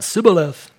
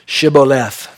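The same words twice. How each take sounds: First: "Sibboleth" with S in place of SH. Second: "Shibboleth" opening on a clear SH; correct sh sound. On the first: Acted. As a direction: let "Sibboleth" come out without the h sound. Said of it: "They came out". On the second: Shown as a demonstration. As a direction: say "Shibboleth" carefully, full sh at the front. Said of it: "They could not say".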